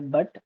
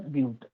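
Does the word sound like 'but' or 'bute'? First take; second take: but; bute. First: It is said to rhyme with 'cut'. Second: It is said to rhyme with 'cute'. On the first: The speaker calls it wrong. "we should not pronounce as a but" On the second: The speaker calls it right. "is a bute"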